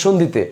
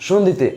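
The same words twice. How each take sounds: Both takes have the same delivery.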